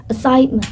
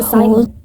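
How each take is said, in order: First: "assignment" with slight weight on SIGN; clear American pronunciation. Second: "assignment" with a softened ending; relaxed British pronunciation. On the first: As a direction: lean lightly on the middle of "assignment". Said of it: "with the middle sound slight emphasis". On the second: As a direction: let the end of "assignment" fade. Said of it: "a softer ending". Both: Shown as a demonstration.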